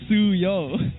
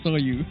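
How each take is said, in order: First: The u vowel comes before the o. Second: The o vowel comes before the u. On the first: The speaker calls it right. "It's U and then O" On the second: The speaker calls it wrong. "subconsciously say his name as Soyu"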